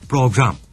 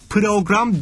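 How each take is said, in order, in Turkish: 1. p ve r ünlüsüz birleşir. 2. p ile r arasına bir ünlü eklenir.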